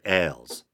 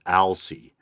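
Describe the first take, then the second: First: The name ends without a final vowel sound. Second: The name ends with a long E vowel. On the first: "I almost pronounced it Ailes" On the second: "I thought maybe the E at the end would be long. So I ended up going with Alcy"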